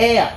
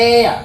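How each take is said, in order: No difference in how they are said.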